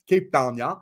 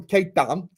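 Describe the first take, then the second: First: Mock South African accent on the place name; light South African imitation. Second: Said in the usual way. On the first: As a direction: echo it as a South African would. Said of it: "South African birds".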